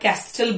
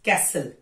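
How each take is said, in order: First: A t sound is heard in the middle. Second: No t sound is heard in the middle. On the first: The speaker calls it wrong. "लोग इसे कई बार कैस्टल बोलते हैं" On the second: The speaker calls it right. "It's कैसल"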